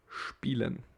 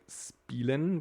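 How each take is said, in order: First: The word begins with an sh sound. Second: The word begins with a plain s sound. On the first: The speaker calls it right. "but we say spielen" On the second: The speaker calls it wrong. "we don't say spielen"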